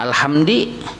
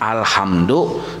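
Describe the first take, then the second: First: The word ends with an 'i' vowel. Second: The word ends with an 'u' vowel. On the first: The speaker calls it wrong. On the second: The speaker calls it right.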